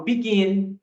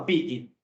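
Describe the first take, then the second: First: "begin" stressed on the final "gin"; stress on second syllable. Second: "begin" wrongly stressed on "be"; stress on first syllable. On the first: English teacher demonstrating correct stress to students, final-syllable stress on "begin". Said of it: "a entonação tá no gin". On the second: English teacher showing students the mistake, first-syllable stress on "begin". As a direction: hit the "be" of "begin", let "gin" drop. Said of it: "a entonação está no bi". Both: Shown as a demonstration.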